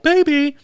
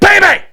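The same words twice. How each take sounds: First: It is called out in a calm voice. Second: It is yelled in an angry voice.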